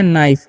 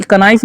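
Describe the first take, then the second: First: नाइफ with silent k, just naif; right way, नाइफ as naif; correct pronunciation. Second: कनाइफ with the k sounded, kuh-naif; wrong way, कनाइफ with a spoken k; wrong pronunciation. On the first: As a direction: say नाइफ with no k sound at the start. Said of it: "के silent होता है". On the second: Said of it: "तो कनाइफ नहीं". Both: Shown as a demonstration.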